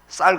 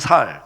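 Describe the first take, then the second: First: The word begins with a tense s sound. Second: The word begins with a plain s sound. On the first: The speaker calls it right. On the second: The speaker calls it wrong.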